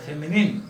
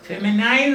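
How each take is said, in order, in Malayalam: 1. അവസാന അക്ഷരം 'nin' പോലെ കേൾക്കുന്നു. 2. അവസാന അക്ഷരം 'nine' പോലെ കേൾക്കുന്നു. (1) "അതുകൊണ്ട് ഫെമിനിൻ" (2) "ഫെമിനൈൻ എന്ന് പറയരുത്"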